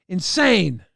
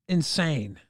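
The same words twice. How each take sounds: First: Insane punched louder; louder emphatic repeat. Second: Said in the usual way. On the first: Real, not acted. Streamer repeats insane to chat, louder. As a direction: hit insane hard the second time, with a falling tune. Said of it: "That was insane".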